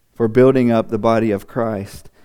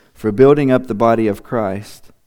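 The two takes are said the same way.

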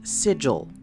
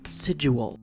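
First: The word rhymes with vigil. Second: The word does not rhyme with vigil. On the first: The speaker calls it right. "it's pronounced sigil, It rhymes with vigil" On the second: The speaker calls it wrong. "not sigil"

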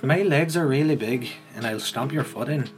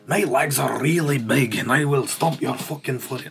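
First: It is said in a Northern Irish accent. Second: It is said in a Scottish accent.

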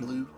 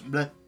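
First: The word is said like English blue. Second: The word is said with French vowel sounds. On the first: "Otherwise known as Labatt Bleu" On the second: "But in French, it's bleu"

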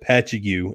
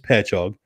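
First: The name is pronounced in a non-local way. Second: The name is pronounced in the local way. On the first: The speaker calls it wrong. "I was calling it Patchogue, and I was chastised for that" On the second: The speaker calls it right. "I believe the correct enunciation is Patchogue"

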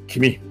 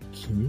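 First: The word is said in an angry tone. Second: The word is said in a soft, gentle tone. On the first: The speaker is angry. "怒った何なんだって頭の中で言わないで唱えるんですね。" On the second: The speaker is uneasy or questioning. "柔らかく吸って君っていう風になりますよね"

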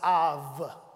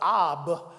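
First: The word ends with a v sound. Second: The word ends with a b sound. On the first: The speaker calls it right. "it's pronounced av" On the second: The speaker calls it wrong. "instead of ab"

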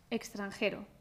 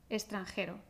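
First: The x is pronounced as a gs sound. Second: The x is pronounced as an s sound. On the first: "Si pronunciamos la X como una X, X, con G, S, vamos a pronunciar de una manera más relajada" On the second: "si pronunciamos la X como una S"

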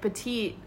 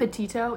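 First: The name ends without the final o sound. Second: The name ends with a clear o sound. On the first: The speaker calls it wrong. "he was like, petite" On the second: The speaker calls it right. "Is that how you say her name?"

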